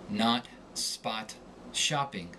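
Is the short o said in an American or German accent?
American. The short o is an open American 'ah'. "Within the confines of the American accent, the short O sounds like ah"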